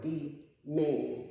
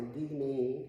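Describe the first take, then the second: First: "the man" slowly, with the stress on "man"; stress on last syllable. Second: "the man" with the stress wrongly on "the"; stress on first syllable. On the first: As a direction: draw it out and lean on "man". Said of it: "what, the last syllable". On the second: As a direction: lean on "the", let "man" fall away. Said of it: "It's the emphasis on the". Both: Shown as a demonstration.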